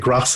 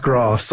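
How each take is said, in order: First: It is said in a northern English accent. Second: It is said in a posh, exaggerated British accent. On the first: "in the north of England, Like we say grass here" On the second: "I can turn up my British accent"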